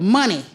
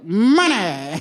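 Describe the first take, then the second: First: It is said in a plain, ordinary voice. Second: It is said in a put-on rich-person voice.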